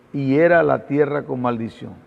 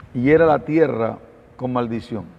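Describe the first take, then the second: No difference in how they are said.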